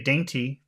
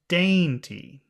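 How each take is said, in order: First: The word is said flat, without emphasis. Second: The word is said long, high and emphatic. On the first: The word is not important to the speaker. "that doesn't sound it doesn't carry any emotion with it" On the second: The word is important and felt positively. "then I understand it's important"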